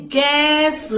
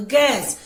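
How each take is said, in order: First: "गैस" stretched as गै-स; teacher's drawn-out "गैस"; sounding out. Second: Said in the usual way. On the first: Shown as a demonstration. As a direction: hold the vowel of "गैस", then add स. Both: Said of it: "जिसे हम कैसे बोलते हैं".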